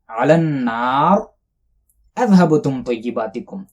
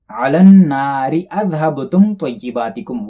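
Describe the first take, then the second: First: There is a stop after النار. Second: The words run on without a pause.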